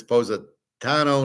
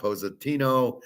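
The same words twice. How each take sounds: First: Positano with a stressed "tah" as third syllable; imitated correction. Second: Positino with "tee" as third syllable; mimicked mispronunciation. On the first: She corrects Howard's pronunciation, saying "Positano" with "tah". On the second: She mimics Howard's mistake, saying "Positino" with "tee". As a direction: say "Positino" with an EE in place of AH. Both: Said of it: "how I pronounce it".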